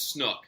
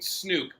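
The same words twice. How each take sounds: First: The vowel is a short 'oo' as in book. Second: The vowel is a long 'oo' as in Luke. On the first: The speaker calls it right. "it's snook" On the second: The speaker calls it wrong. "I don't like people that pronounce it snook"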